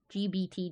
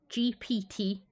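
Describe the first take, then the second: First: The middle letter is said with a B sound. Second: The middle letter is said with a P sound. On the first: The speaker calls it right. "I say G B T, as in B for ball ... just rolls" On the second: The speaker calls it wrong. "not P for papa. ... Those syllables are wrong"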